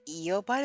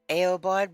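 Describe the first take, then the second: First: The first vowel is a long E. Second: The first vowel is not a long E. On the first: The speaker calls it right. "It's a long E sound" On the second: The speaker calls it wrong. "So I just say Aobard"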